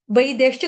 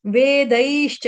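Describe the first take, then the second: First: वैदेश्च with "ai" first and "e" second; mistaken vai-desh. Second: वेदैश्च with long "e", then "ai", drawn slowly; correct ve-daish. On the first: Teacher demonstrating a common slip, वैदेश्च as "vai-deshcha". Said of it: "गलती से बोला जाता है". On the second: Teacher correcting the slip, वेदैश्च as "ve-daishcha". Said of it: "वही नहीं बोलेंगे". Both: Shown as a demonstration.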